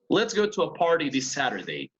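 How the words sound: The t sounds are tapped, like a quick r.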